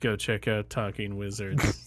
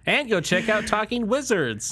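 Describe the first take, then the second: First: It is said in a gloomy, Eeyore-like tone. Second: It is said in an excited, eager tone.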